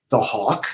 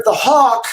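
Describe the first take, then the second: First: Said in the usual way. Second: "the Hawk" said higher and louder in the letter voice; character voice. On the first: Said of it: "and he said". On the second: Acted. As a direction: announce "the Hawk" like a grand password. Code word in character voice.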